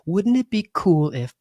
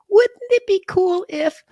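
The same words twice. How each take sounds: First: It is said in a normal voice. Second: It is said in a high, childlike voice.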